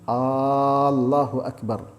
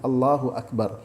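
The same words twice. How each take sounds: First: The opening vowel of Allahu is drawn out long. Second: The opening vowel of Allahu is short. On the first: It asks whether God is the greatest. The speaker calls it wrong. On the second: It declares that God is the greatest. The speaker calls it right.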